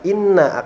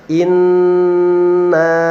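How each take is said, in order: First: The n sound is short without a held hum. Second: The n sound is held long with a nasal hum. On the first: The speaker calls it wrong. "tidak dibaca inna" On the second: The speaker calls it right. "dibaca inna, ... karena terdapat gunnah atau dengung"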